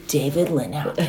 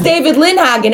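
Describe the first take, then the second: First: Low, hushed echo of the name; Cal. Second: Higher-pitched name, said out plainly; imitating a first speaker. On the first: Retold or imitated. Husband repeating his rival's name, low and hushed. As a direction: drop it far down, soft, in imitation. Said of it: "and then Cal goes". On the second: Boyfriend repeating the newcomer's name, mock recognition. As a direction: say the name up high as a retold line. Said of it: "Jacob says".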